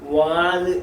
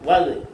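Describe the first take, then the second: First: The vowel is drawn out long. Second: The vowel is cut short. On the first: The speaker calls it wrong. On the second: The speaker calls it right.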